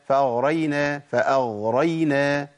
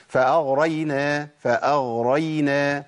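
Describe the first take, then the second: No difference in how they are said.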